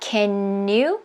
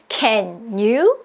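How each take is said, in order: First: The two words run together as one word. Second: The two words are said apart, not joined. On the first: "연결돼서" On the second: "이렇게 안 해도"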